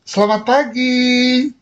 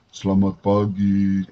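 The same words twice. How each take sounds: First: It is said in a bright, cheerful voice. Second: It is said in a dull, gloomy voice.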